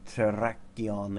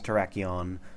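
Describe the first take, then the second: First: The R sounds are strongly exaggerated. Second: The R sounds are said plainly. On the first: "over-exaggerating the pronunciation of the R's because I just like doing it" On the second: "I know its name is Terrakion"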